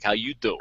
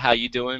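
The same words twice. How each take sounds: First: It is said in a Joey from Friends voice. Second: It is said in a plain reading voice.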